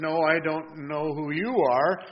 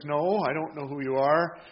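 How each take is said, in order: First: Slow, mildly thrown answer; caught off guard. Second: Said in the usual way. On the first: Retold or imitated. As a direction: retell his startled reply, taking time. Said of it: "caught a little off guard". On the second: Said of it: "And she says".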